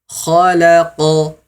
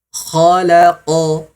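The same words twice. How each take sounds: Both takes have the same delivery.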